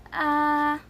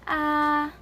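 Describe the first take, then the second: First: The pitch stays level and flat. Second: The same.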